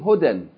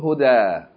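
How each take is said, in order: First: The word ends with an n sound. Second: The word ends on a long a vowel. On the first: The reading continues past this word. "it's pronounced hudan, in what case? You continue reading" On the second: The reading stops on this word. "Whereas if you stop on it, goes back to our rule"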